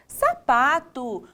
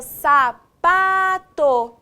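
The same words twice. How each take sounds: First: Said in the usual way. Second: SAPATO very slow and loud, syllable by syllable. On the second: Shown as a demonstration. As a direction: stretch out each syllable of "sapato", separated. Teacher splits word into syllables. ("sapato" bem devagar, sílaba por sílaba)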